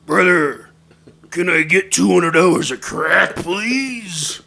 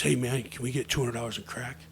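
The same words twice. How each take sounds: First: Booming wrestler character voice; loud, theatrical impression of a wrestler's plea. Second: Lightly voiced low everyday voice; slightly quieter, lower-pitched casual request. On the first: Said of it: "J Y D says in his voice". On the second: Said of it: "says in his normal voice".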